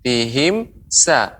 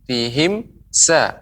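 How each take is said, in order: The two takes are said the same way.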